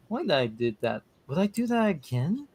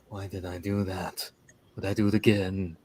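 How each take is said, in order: First: It is said in the speaker's normal voice. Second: It is said in an imitation of Crush's voice.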